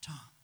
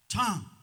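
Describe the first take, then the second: First: The name is said softly and quietly. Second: The name is called out loudly. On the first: The call seems faint because the listener's heart has hardened. "that voice will get softer" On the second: The call is strong and urgent at first. "at first he'll call very loudly to you"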